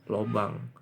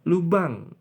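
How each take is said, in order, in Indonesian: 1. Vokal pertama bunyinya seperti 'o'. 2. Vokal pertama bunyinya seperti 'u'. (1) "bukan pakai O" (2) "pakai U"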